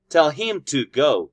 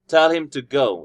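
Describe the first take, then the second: First: Him and to are strong and stressed. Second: Him and to are weak and unstressed.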